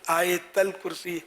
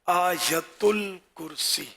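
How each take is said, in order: First: The first word is said as aayatal. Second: The first word is said as aayatul. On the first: This is a common mispronunciation. The speaker calls it wrong. "इसमें लोग इसको भी आयतल या आयतल" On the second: This is the real pronunciation. The speaker calls it right. "तो असल तलफ़ुज़ है"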